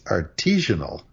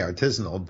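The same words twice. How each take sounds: First: It sounds like artesian with -al added. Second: It sounds like artisan with -al added. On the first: The speaker calls it wrong. "the one that you don't want, and which I do hear waiters saying" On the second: The speaker calls it right. "I say artisanal"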